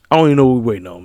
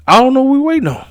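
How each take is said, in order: First: Said in the usual way. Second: Exasperated. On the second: Real, not acted. Exasperated about long wait.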